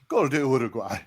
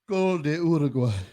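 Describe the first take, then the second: First: It sounds pleading, as if negotiating. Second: It sounds sad and dejected. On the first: Maybe the goal can somehow be undone. "Then bargaining" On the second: All hope is lost.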